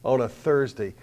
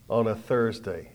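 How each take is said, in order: First: Said in the usual way. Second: Thursday repeated slower with weight; slow down and let "On a Thursday" land. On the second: Shown as a demonstration. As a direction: pastor repeating "On a Thursday" slowly for emphasis.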